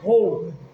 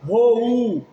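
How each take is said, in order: First: The o and u blend into one syllable. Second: The o and u are separate syllables. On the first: The speaker calls it right. "você faz rou, numa sílaba só" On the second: The speaker calls it wrong. "Você não faz rou"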